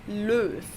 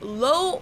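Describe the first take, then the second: First: It has a rounded front German ö vowel. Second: It sounds like the English word low. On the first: The speaker calls it right. "but it's Löw" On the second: The speaker calls it wrong. "not Low or Love, like I've heard many Americans say it"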